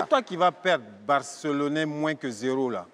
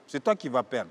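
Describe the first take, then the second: First: Loud retort. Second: Said in the usual way. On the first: Acted. Answering the Barça fan, louder. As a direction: fire it back hard. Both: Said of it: "repeated retort".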